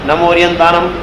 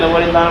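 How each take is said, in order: First: It is recited slowly, pausing after the phrase. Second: It is recited fast, still pausing after the phrase. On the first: "અહીં અટકતા જવાનું" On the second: "ભલે હું fast બોલતો તો એમાં અટકતું છે"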